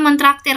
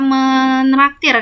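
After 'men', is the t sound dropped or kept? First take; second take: kept; dropped. First: The t sound after men is kept. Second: The t sound after men is dropped. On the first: This is the standard form. The speaker calls it right. "yang benar itu adalah mentraktir" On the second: This is the everyday colloquial form. The speaker calls it wrong. "biasanya kita menggunakan kata menraktir"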